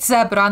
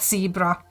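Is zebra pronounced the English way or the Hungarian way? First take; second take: Hungarian; English. First: The word is said with Hungarian pronunciation. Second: The word is said with English pronunciation. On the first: "We we call it zebra" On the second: "not zebra"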